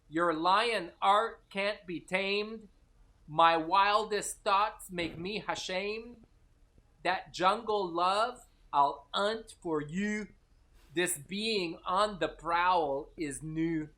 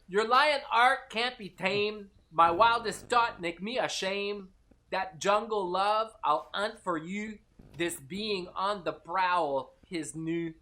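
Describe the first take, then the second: First: It is said at a normal speed. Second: It is said at a faster speed.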